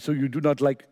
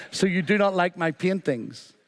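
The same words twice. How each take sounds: First: Lightly attempted French accent; tentative French accent, soon abandoned. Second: Said in the usual way. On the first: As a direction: put on a mild French artist's accent. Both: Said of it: "I'll not do the French accent".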